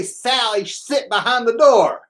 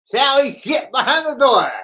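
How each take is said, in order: First: Saying it while holding the tongue; tongue sticking out. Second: Tongue sticking out. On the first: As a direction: hold your tongue and talk slowly. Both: Shown as a demonstration. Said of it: "I used to hold my tongue and say".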